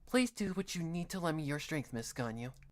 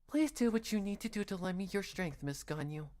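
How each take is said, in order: First: The voice is pitched fairly low. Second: The voice is pitched noticeably higher. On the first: The speaker calls it wrong. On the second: The speaker calls it right.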